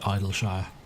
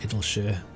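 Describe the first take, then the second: First: The first syllable sounds like 'idle'. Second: The first syllable sounds like 'idyll'. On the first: The speaker calls it wrong. "My brain wants to say Idleshire" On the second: The speaker calls it right. "force myself to pronounce it Idyllshire"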